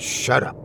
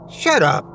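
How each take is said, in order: First: Whispered shut up. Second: Sharp shout. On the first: Corey tells stranger to stop. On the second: Corey snaps at the stranger. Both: Acted.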